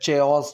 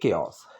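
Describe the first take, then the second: First: The word begins with a ch sound. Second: The word begins with a k sound. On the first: The speaker calls it wrong. "चेओस चॉस कुछ नहीं है" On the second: The speaker calls it right. "क क से है"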